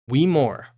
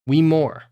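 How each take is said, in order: Both takes have the same delivery.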